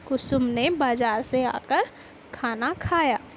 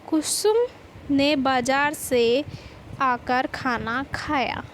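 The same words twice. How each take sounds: First: The word बाजार carries the strongest stress. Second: The word Kusum carries the strongest stress. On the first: She ate right after coming back from the market. "जब हम बाजार शब्द पर जोर देते हैं" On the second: It was Kusum, not someone else, who ate. "कुसुम शब्द पर जोर पड़ते ही"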